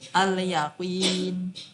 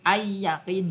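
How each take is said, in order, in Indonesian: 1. Bunyi l terdengar jelas. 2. Bunyi l menyatu dengan konsonan berikutnya. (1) "alnya dibaca jelas" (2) "nggak bisa ay yakin"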